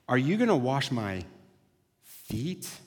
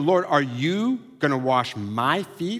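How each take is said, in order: First: The stress is on the word feet. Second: The stress is on the word you.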